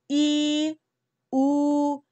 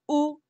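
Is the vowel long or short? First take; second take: long; short. First: The vowel is stretched out longer. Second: The vowel is said short and clipped. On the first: "Now for the long vowels" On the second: "So the short vowels"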